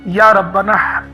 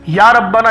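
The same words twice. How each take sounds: First: It is said warmly, with affection. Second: It is said flatly, without affection.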